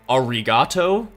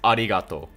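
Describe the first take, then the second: First: The r is a hard American-style r. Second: The r is a light, L-like tongue sound. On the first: The speaker calls it wrong. "you'll find Americans going arigato" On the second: The speaker calls it right. "when it's arigato"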